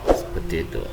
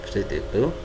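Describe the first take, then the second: Both takes have the same delivery.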